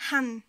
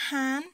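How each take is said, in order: First: HAN short and louder; shortened syllable. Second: HAN drawn out, firmly projected; long vowel. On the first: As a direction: cut the vowel of "han" short. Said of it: "ça sert à raccourcir le son". (« han » au son raccourci) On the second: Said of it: "Vous voyez la différence?". (« han » avec voyelle longue) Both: Shown as a demonstration.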